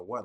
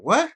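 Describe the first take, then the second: First: Said in the usual way. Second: Loud, high, aggressive challenge. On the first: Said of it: "so aggressive with the". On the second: Acted. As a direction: snap it out aggressively, pitched way up. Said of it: "I'm just so aggressive with the".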